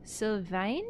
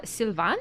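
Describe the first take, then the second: First: Sylvain as sil-VAIN, rhyming with vein; questioning "Sylvain", ending like "vain"; alternative AI pronunciation. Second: Sylvain as seel-VAN, nasal French ending, questioning; unsure French "Sylvain", final n barely sounded; attempted French pronunciation. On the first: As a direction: try Sylvain with an English long A at the end. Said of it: "the A I". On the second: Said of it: "how the French would do the". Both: Shown as a demonstration.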